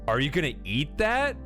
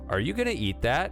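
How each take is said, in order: First: It is said in a disgusted, disbelieving tone. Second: It is said in a flat, neutral tone. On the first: The item seems inedible or disgusting. "I can't believe you're about to eat it" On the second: The speaker hopes to finish the other person's plate. "to put it in a flat neutral tone"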